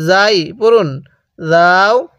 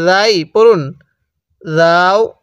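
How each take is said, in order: Both takes have the same delivery.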